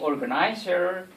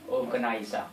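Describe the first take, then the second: First: It is said with an American accent. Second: It is said with an Australian accent. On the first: "Americans say organizer" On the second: "in Australia we say organizer"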